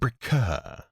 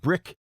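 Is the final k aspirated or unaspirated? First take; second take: aspirated; unaspirated. First: The final k has a drawn-out breath after it. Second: The final k is short with no breath.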